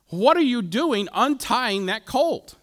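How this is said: The question sounds angry and accusing. An accusation of theft. The speaker calls it right. "they're probably going, you're stealing my dog, you know, quit it"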